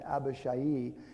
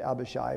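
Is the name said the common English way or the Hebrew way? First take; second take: Hebrew; English. First: The name is said the Hebrew way. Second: The name is said the common English way. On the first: "it's pronounced Abishai in the Hebrew" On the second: "we hear the preacher say Abishai"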